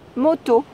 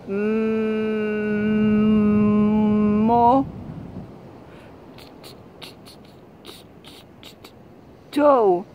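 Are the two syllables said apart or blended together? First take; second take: blended; apart. First: The two syllables are said quickly and blended. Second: The two syllables are said slowly and apart. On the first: The reader recognizes the word and its meaning. The speaker calls it right. "encore plus vite" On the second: The reader decodes sounds without recognizing the word. The speaker calls it wrong. "il lisait mo to"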